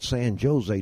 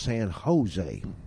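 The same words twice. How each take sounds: First: The j is said with a J sound. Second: The j is said with an H sound. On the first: The speaker calls it wrong. "that's not San Jose down there" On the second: The speaker calls it right. "We pronounce it like an H"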